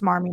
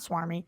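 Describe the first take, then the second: First: The word begins with an sm sound. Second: The word begins with an sw sound. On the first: The speaker calls it right. "learned it's smarmy" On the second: The speaker calls it wrong. "not swarmy. I've been saying it wrong my whole life"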